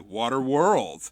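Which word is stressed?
world. The stress falls on the word world. "you put the emphasis on world"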